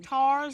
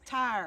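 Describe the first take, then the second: First: The vowel is a flat 'ah', like 'tars'. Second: The vowel glides as in 'tires'.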